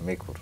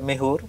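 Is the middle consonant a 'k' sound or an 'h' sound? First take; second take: k; h. First: The middle consonant is a 'k' sound. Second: The middle consonant is an 'h' sound. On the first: This is the usual name of the instrument. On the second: This is how people in the speaker's region say it.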